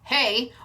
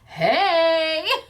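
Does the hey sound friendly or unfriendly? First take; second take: unfriendly; friendly. First: It sounds curt and unfriendly. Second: It sounds warm and friendly.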